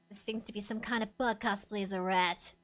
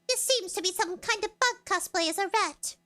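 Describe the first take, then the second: First: It is said in a raspy Nova impression. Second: It is said in a normal voice.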